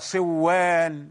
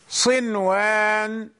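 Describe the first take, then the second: First: صوان with the n swallowed into a doubled w; صوان with a long double w and no clear n; wrongly merged noon. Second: صنوان with a distinct n before the w; clear noon, unmerged. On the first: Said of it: "لو أدغمنا لتغير المعنى". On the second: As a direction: keep the noon audible in صنوان, not blended into waw. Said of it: "النون ظاهرة". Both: Shown as a demonstration.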